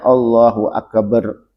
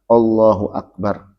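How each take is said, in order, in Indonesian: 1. Huruf "b" pada "akbar" digandakan. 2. "Akbar" diucapkan biasa saja, tanpa dipanjangkan. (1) "juga tidak boleh ditasdid baknya. ... Nggak boleh" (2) "harus jelas mengucapkan akbar"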